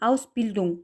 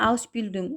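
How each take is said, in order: Both takes have the same delivery.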